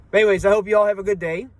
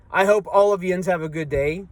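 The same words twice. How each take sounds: First: "you all" slipped out as a quick, casual "y'all"; saying y'all. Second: "yins" said as one syllable, "yinz", the Southwestern PA word for you all; Pittsburgh yins. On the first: Real, not acted. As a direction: let "you all" run together into one quick "y'all". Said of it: "I said y'all". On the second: Shown as a demonstration. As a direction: swap in "yins" the way they say it back home in Southwestern PA. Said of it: "That accent".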